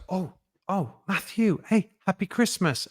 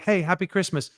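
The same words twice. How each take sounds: First: Lightly voiced cashier, a bit higher and softer; a hint of a delighted shop assistant spotting him; mild imitation of a surprised, friendly cashier; checkout woman's greeting. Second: Said in the usual way. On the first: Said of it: "and the woman goes". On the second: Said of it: "And I'm like".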